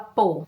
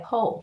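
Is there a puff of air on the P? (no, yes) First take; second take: no; yes. First: The P is said without a puff of air. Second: The P is said with a puff of air. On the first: The speaker calls it wrong. "Não fala Paul" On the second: The speaker calls it right. "enchem a boca de ar antes de falar"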